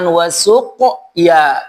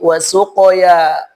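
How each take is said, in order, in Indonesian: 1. Suku kata terakhir dipisah dengan jeda. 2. Suku kata terakhir langsung mengikuti tanpa jeda. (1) "pantulannya jangan dipisah dengan ya" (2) "langsung disambut dengan huruf ya"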